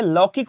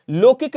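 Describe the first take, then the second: First: लौकिक with open au, "laukik"; correct first vowel. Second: लौकिक with closed o, "lokik"; wrong first vowel. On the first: Teacher correcting students, लौकिक as "laukik". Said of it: "होता है". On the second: Teacher showing students the error, लौकिक as "lokik". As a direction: say लौकिक as "lo-kik". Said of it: "नहीं होता है". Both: Shown as a demonstration.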